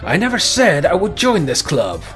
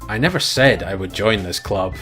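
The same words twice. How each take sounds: First: It is said forcefully, as an exclamation. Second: It is said flatly, without force.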